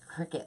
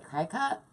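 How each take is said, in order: First: The first syllable sounds like 'crick'. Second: The first syllable sounds like 'cry'. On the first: "like a bug" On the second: "I don't know if I ever say that right"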